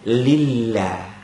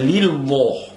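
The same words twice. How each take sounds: First: The l sound in Allah is thin. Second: The l sound in Allah is thick. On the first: The speaker calls it right. "Allah dibaca nipis" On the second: The speaker calls it wrong. "Tak boleh dibaca lillah. Salah"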